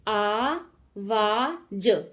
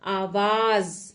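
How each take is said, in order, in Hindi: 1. अंतिम व्यंजन j ध्वनि है। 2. अंतिम व्यंजन z ध्वनि है। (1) "आवाज नहीं होता" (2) "इसके नीचे क्या लगेगा? नुक्ता।"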